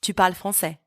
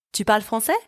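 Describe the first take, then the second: First: "Tu parles français" with the voice falling on "français"; statement intonation. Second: "Tu parles français" with a clear upswing on the end of "français"; rising question intonation. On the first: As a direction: state "Tu parles français" as fact, no lift at the end. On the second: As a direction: raise the voice at the end of "français" to ask. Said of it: "I've just raised my voice at the end". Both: Shown as a demonstration.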